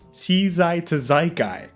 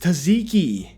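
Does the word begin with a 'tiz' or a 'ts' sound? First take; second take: tiz; ts. First: It starts with 'tee-zai', split into drawn-out parts. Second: It starts with a 'ts' sound, said smoothly. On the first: The speaker calls it wrong. "the word is pronounced" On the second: The speaker calls it right. "it's tzatziki"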